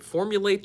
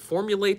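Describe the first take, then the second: First: It is run together as three syllables. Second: It is run together as three syllables.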